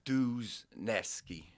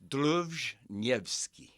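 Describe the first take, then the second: First: The surname is said with an English-style pronunciation. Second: The surname is said with a Polish-style pronunciation. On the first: "Americanized, we've always said Duzneski" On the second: "say the Polish again"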